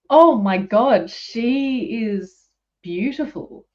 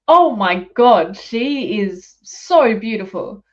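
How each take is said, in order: First: It is said with little energy. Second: It is said with lots of energy.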